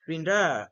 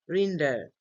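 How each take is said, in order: First: The stress is on the second syllable. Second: The stress is on the first syllable. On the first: The speaker calls it wrong. "Not render" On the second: The speaker calls it right. "we say render. Re is pronounced louder"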